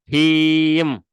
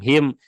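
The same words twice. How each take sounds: First: The vowel is held long. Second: The vowel is cut short. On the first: The speaker calls it right. "Harusnya minimal kan dua harokat" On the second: The speaker calls it wrong. "tanpa ada eh, mad"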